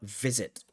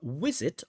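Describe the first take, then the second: First: The word begins with a v sound. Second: The word begins with a w sound. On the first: "or V, V, V, V, visit?" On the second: "do you hear W, W, W, W, visit"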